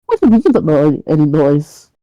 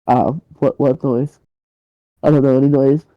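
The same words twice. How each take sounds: First: Pitched-up, indignant challenge; incredulous irritation. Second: Halting, guarded denial of any noise; awkward feigned ignorance. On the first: Neighbour disbelieving his excuse, incredulous irritation. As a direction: throw the denial back at him, annoyed. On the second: Kidnapper caught at the door by his neighbour, awkward feigned ignorance. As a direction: play dumb, awkwardly and without energy. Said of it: "sort of shuffles awkwardly". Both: Acted.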